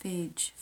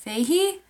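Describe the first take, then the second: First: Fage as one syllable, "fayj"; rhymes with page. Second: Feihi as "FAY-hee", rising in question; two-syllable Fage. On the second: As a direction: lift the end of Feihi, unsure. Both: Shown as a demonstration. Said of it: "does not rhyme with page".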